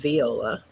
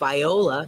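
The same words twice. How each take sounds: First: It uses the usual, widely known pronunciation. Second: It uses the local town's own pronunciation. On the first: This is not how the town's name is said. "not Viola" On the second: This is how the town's name is said. "a town named Viola"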